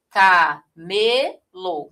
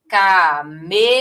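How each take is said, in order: First: Camelo spelled out very slowly, syllable by syllable, landing on "me"; syllable-by-syllable demo. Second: Camelo drawn out slowly, the middle syllable "me" stressed and louder; stressed syllable demo. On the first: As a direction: break Camelo into its syllables, very slow. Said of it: "Mostrando aqui que a posição dois". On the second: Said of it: "a sílaba mais forte". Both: Shown as a demonstration.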